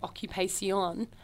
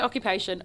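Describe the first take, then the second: First: The word is said with a Spanish accent. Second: The word is said with an English accent.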